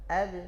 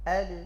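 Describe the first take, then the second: Both takes have the same delivery.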